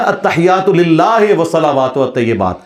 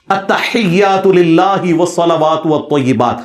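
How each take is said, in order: First: Mock majhool التحیات, "lillāhe ... atejebāt"; imitating cleric's recitation. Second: Slow التحیات للہ with a clean Arabic "lillāhi"; correct Arabic recitation. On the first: Mocking how Sajid Mir would recite the prayer. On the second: Shown as a demonstration. Showing the proper way to recite the prayer. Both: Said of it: "وہ پڑھے گا".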